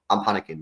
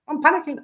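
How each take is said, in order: First: Said in the usual way. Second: Squeaky high-pitched mock panic; mock panic squeal. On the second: Streamer to chat about December, mock panicked squeal. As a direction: squeak it out way up high in pretend alarm.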